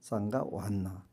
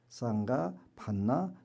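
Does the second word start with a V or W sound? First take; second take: W; V. First: The second word starts with a w sound. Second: The second word starts with a v sound. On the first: "V 발음을 안 하고 전부 다 그냥 이응 발음으로" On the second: "요 반자가 V자가 써 있어요"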